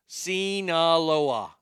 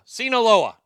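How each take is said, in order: First: "Sinaloa" stretched slowly as see-nah-LO-ah; slow careful Sinaloa. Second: "Sinaloa" punched loud and high, see-na-LO-ah; emphatic Sinaloa. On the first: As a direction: spell out "Sinaloa" syllable by syllable, slowly. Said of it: "There we go". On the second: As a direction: nail "Sinaloa" with a loud triumphant push. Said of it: "Now I got it". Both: Shown as a demonstration.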